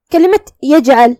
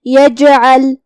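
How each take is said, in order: First: Said in the usual way. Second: یجعل with the ج bounced, a light echo after it; qalqalah on jeem. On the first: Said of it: "ہم جیم کو ہلاتے ہوئے". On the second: Shown as a demonstration. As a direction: shake the jeem in یجعل, then release. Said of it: "ہم جیم کو ہلاتے ہوئے یہ کلمہ کو ادا کریں گے".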